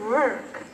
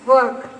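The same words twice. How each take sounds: First: The R sound is pronounced. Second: The R sound is silent. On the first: "you don't say work" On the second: "the letter R is made silent"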